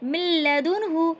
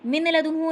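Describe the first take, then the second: First: The n merges into the following l. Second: The n sound is kept before the l. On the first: The speaker calls it right. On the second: The speaker calls it wrong. "मिन लदुन्हु नहीं"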